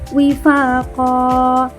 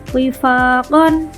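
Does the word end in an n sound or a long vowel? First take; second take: long vowel; n sound. First: The word ends with a long vowel. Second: The word ends with an n sound. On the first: "kita membacanya tidak tanwin karena ada tanda wakaf" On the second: "huruf terakhirnya tanwin"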